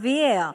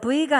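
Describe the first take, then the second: First: The first sound is made with teeth on lip. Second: The first sound is made with both lips. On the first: The speaker calls it right. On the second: The speaker calls it wrong. "V가 아니고"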